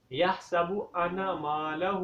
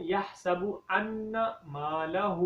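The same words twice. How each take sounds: First: ان said with a single short nun, not doubled; wrong pronunciation. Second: ان said with a doubled, held nun, انّا; correct pronunciation. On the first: Teacher shows students the mistake, ان with single nun. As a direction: mispronounce ان with one light n. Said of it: "تو یہ غلطی ہے". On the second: Teacher models the correct reading, doubled nun in ان. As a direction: hold the n in ان, slow recitation. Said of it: "اصل میں کیا ہے". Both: Shown as a demonstration.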